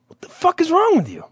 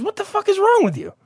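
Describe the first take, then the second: First: Imitated indignant stranger. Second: Very high mock-outraged voice; imitated indignant stranger. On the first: Guy in line confronting another, imitated high indignation. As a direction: put on a high, incredulous complainer. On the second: Guy in line rounding on the storyteller, imitated high outrage. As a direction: go higher, squeakily incredulous without shouting. Same guy now turns on speaker.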